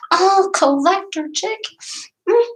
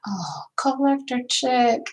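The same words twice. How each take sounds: First: High, bright squeal of recognition; Oh, collector chick called out much higher; excited greeting. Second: Soft whisper, slower and breathy; Oh, collector chick whispered slowly; whispered greeting. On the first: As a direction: greet her like a dear friend. Reading a viewer's name excitedly. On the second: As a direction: murmur the name tenderly. Reading a viewer's name softly. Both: Real, not acted.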